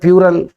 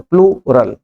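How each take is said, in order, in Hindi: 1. शब्द P glide से शुरू होता है, L नहीं। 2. शब्द P के बाद L से शुरू होता है। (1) "कोई बोलता है प्यूरल, यह नहीं आता" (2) "हम बोलते प्लूरल"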